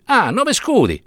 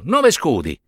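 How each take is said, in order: First: High, mocking repeat of Nove scudi; mock outrage at nove scudi; scoffing. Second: Said in the usual way. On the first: A narrator's reading. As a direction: sneer at the price, pitched up. Priest scoffs at the price.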